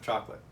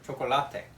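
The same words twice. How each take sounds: First: It is pronounced the English way. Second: It is pronounced the Spanish way.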